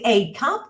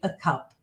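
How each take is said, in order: First: The word 'a' has a full vowel sound. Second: The word 'a' has a weak reduced vowel. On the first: The speaker calls it wrong. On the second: The speaker calls it right.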